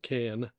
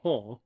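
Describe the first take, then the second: First: The name is said with an English pronunciation. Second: The name is said with a French pronunciation. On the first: This is how English speakers say the name. "but we pronounce it Cannes" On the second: This is how locals say the name. "is how the French pronounce it"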